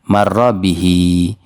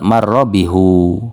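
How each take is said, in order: First: The final vowel is an 'i' sound. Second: The final vowel is a 'u' sound. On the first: It makes the phrase lighter to say. The speaker calls it right. "maka ini kita baca kasroh juga" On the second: It makes the phrase heavy to say. The speaker calls it wrong. "Kalau tetap dibaca dhamma akan berat"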